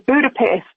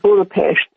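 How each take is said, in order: First: It is pronounced the way Americans say it. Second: It is pronounced the way local natives say it. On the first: "I think you would say it in America" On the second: "the natives of that part of the world called it"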